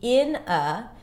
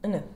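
First: Both words are said fully and separately. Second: The words blend into one reduced 'inna'. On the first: "The strong form would be in a" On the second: "here you want to reduce it into inna"

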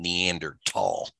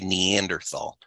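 First: The middle consonant is a plain 't' sound. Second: The middle consonant is a 'th' sound. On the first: "I hear some people these days saying Neanderthal" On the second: "Now I say Neanderthal"

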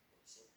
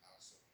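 First: The first vowel is a 'u' sound. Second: The first vowel is an 'a' sound. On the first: "Ini bisa bidomil kaf" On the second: "bisa dibaca Kalsum"

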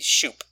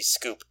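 First: It starts with sh and has an oo vowel. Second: It starts with sk and has an oo vowel. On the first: The speaker calls it right. "It should be shoop" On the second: The speaker calls it wrong. "nor should it be scoop"

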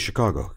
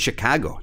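First: It is said in a milder, less local accent. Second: It is said in a strong local Chicago accent. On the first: This avoids sounding like a local. "I just say it that way so that I don't sound like one of those guys" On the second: This is how the locals say it. "That's how they say it"

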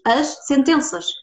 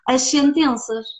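First: A short pause separates the two words. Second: The words run together without a break. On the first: The speaker calls it right. "ou então separas as palavras" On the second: The speaker calls it wrong. "Tu não dizes as sentenças"

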